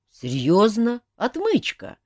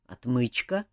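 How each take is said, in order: First: High-pitched disbelieving question on Отмычка; incredulous. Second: Said in the usual way. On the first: A narrator's reading. Mafei to Jacques about his gadget, incredulous. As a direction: question Отмычка as if it must be a joke. Mafei doubts the lock-pick answer.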